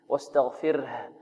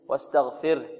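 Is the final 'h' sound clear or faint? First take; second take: clear; faint. First: The final 'h' is clearly voiced and audible. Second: The final 'h' is faint and barely audible. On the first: The speaker calls it right. "أن نوضحها في القراءة، نقول واستغفره" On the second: The speaker calls it wrong. "بعض الطلاب يقول واستغفره واستغفره، يعني ها خفيفة ربما لا تكاد تبين"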